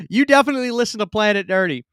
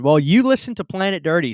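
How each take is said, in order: First: "definitely" hit hard, line louder and quicker; playful, emphatic "definitely"; emphatic insistence. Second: Said in the usual way. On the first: Real, not acted. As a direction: lean on "definitely" to drive it home.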